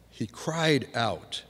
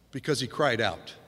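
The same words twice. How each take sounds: First: "He cried out" drawn out slowly, weight on "cried"; slow emphatic repeat. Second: Said in the usual way. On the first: Shown as a demonstration. Preacher repeats phrase for emphasis.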